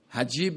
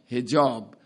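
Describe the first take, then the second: First: The last syllable has an 'ee' vowel. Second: The last syllable has an 'aa' vowel.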